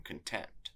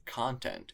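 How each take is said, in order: First: "content" stressed on TENT; "content" as con-TENT, first syllable unstressed; stress on second syllable. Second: "content" stressed on CON; "content" as CON-tent, second syllable unstressed; stress on first syllable. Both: Shown as a demonstration. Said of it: "stressed and unstressed syllables".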